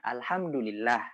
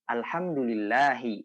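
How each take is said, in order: First: The word ends without a final vowel. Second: The word ends with a final 'i' vowel. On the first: The speaker calls it right. "biasanya tuh di akhir-akhirnya saja" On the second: The speaker calls it wrong. "Jadi nggak perlu alhamdulillahi"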